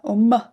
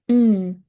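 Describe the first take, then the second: First: The sound ends with an added short vowel. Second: The sound is held alone with no vowel. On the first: The speaker calls it wrong. "instead of m" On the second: The speaker calls it right. "say mm instead of"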